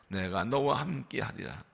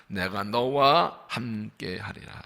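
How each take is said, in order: First: Softer, falling on 너와; 너와 said gently, low and soft; soft repeat. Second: Very slow, weight on 너와; 너와 stretched and stressed, slow solemn reading; slow emphatic reading. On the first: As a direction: repeat quietly as a reflection. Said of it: "repeated softly". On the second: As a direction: lean on 너와 and draw out each word. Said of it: "preacher reads key verse slowly". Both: Shown as a demonstration.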